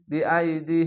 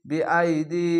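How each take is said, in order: Both takes have the same delivery.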